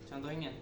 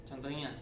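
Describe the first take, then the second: The two takes are said the same way.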